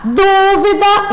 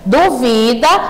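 First: The stress is on the first syllable. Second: The stress is on the second syllable. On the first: It is a noun meaning uncertainty. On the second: It is a form of the verb 'to doubt'. "verbo duvidar"

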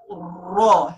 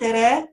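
First: The r syllable is heavy and full. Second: The r syllable is light and thin. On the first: The speaker calls it right. "it's raw, heavy tone" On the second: The speaker calls it wrong. "it's not Ra"

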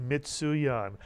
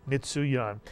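Both takes have the same delivery.

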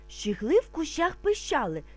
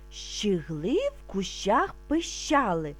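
First: It is said a little faster. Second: It is said calmly and slowly. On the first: "А тепер трошки швидше" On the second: "Спочатку ми будемо вимовляти спокійно, не спіша"

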